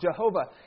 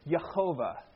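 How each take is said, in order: First: The name begins with a J sound. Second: The name begins with a Y sound. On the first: The speaker calls it wrong. "traditionally, we as Christians have pronounced this word as Jehovah" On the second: The speaker calls it right. "there is no J sound in the Hebrew language, but Yehovah"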